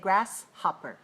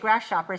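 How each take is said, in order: First: The middle has a clear h, as in hopper. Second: The middle sounds like sh, as in shopper. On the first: The speaker calls it right. "say grasshopper. Right, with a h, h, h sound" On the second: The speaker calls it wrong. "Don't say grasshopper"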